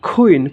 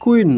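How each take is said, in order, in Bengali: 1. প্রথম ব্যঞ্জনধ্বনিটি আসপিরেটেড, একটু ফুঁ দিয়ে উচ্চারণ করা হয়। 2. প্রথম ব্যঞ্জনধ্বনিটি সাধারণ, ফুঁ ছাড়া উচ্চারণ করা হয়।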